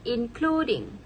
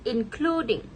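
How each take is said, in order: No difference in how they are said.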